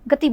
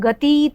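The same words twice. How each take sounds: First: The final vowel is quick and short. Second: The final vowel is drawn out long. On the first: The speaker calls it right. "गति बोल रहे हैं, तो ती जल्दी हो गया, झटके में हो जाता है" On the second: The speaker calls it wrong. "हम गति तो नहीं बोल रहे"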